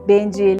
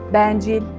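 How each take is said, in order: First: The e is closed, with the mouth narrower. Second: The e is open, with the mouth wider. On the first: The speaker calls it right. "Kapalı e sesi ağzın daha az açılması ile çıkar" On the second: The speaker calls it wrong. "Bu kelimeleri şu şekilde söyleseydim"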